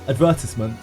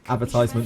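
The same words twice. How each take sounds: First: The word is said with a British pronunciation. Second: The word is said with an American pronunciation. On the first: "That's the English way of saying it, the British way of saying it" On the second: "But sometimes I say advertisement as well"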